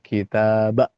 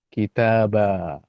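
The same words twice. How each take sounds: First: The final vowel is cut off by a glottal stop. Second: The final long vowel flows on without stopping. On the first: The speaker calls it wrong. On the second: The speaker calls it right.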